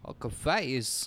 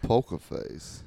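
First: Slow, measured deadpan. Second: Slow, breathless deadpan. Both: Retold or imitated. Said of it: "[name]'s singing".

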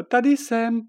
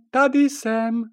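First: High, loud call from the window. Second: High, loud repeated call; calling out again. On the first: Princess Žofie calling from the window, high and loud. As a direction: call up to them from below. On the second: Princess Žofie calling again from the window, high and loud. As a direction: call louder to be noticed. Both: Acted.

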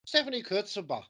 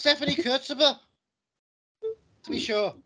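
First: An Italian name in a hammed-up Irish accent. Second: A much louder and higher hammed-up Irish accent. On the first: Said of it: "say this in a way which I think is correct in the, uh, accent". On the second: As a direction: belt it out like a stage Irishman. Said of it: "an Italian name with an Irish accent".

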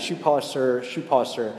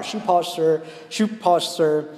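First: Put-on a light street call of a shoeshine boy, level; casual mock street cry, not pushed. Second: Higher, louder street call over the crowd; boy straining to be heard, pitched up and louder; crying out louder. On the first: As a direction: call it out, no effort behind it. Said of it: "he's doing that". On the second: Retold or imitated. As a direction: push the shoe shine call above a busy station. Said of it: "tries to cry out louder".

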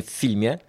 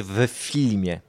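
First: "w filmie" with w merged into the f; run-together preposition. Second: "w filmie" with w voiced apart as "we filmie"; old-school stage "w filmie", the w sounded separately; separated preposition. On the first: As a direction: say "w filmie" casually as "ffilmie". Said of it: "co się mówimy w filmie". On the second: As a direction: articulate the w before "filmie". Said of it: "powinniśmy powiedzieć w filmie". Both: Shown as a demonstration.

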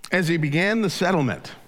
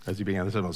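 First: "began" said high and loud, the line ringing out; dramatic reading. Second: Said in the usual way. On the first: Shown as a demonstration. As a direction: read "As he began the settlement" with a big push on "began".

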